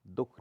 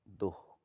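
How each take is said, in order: First: दुख as one short dukh; no visarga. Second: दुख drawn out as duh-kh; sounded visarga. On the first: Teacher shows the common error, दुख without visarga. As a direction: say दुख without breath before kh. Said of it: "नहीं होता". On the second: Teacher corrects the error, दुख with sounded visarga. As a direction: breathe an h in दुख before kh. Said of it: "होता है". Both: Shown as a demonstration.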